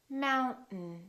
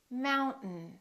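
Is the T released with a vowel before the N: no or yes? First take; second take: no; no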